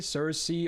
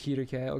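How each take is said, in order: First: The name is said the usual English way. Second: The name is said the Japanese way. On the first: "If you want to say Cersei or whichever, that's fine" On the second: "because Japanese it's Kirke"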